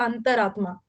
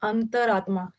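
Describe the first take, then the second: No difference in how they are said.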